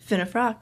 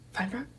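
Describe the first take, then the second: First: The name is said as Finnefrock. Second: The name is said as Feinfrock. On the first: The speaker calls it right. "that's my last name" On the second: The speaker calls it wrong. "The most common mispronunciation has to be Feinfrock"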